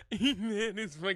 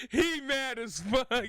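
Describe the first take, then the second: First: Cracking up mid-sentence; laughing so hard it breaks. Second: Laughing while talking; giggling through the words. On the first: Repeat while laughing. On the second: Streamer laughing at angry man. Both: Real, not acted.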